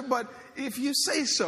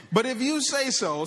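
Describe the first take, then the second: First: Reluctant agreement. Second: Higher, louder grudging give-in; grudging agreement. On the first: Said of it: "adding my own kinda inflection on that". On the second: Simon giving in to Jesus, grudging and loud. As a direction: give in with a reluctant edge. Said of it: "perhaps the tone here". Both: Acted.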